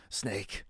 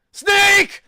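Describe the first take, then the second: First: Said in the usual way. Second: Huge, far higher scream of a name; anguished shout. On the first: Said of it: "NPC voice demo". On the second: Shown as a demonstration. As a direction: bellow it like a game hero in agony. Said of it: "voices of a guy getting hit".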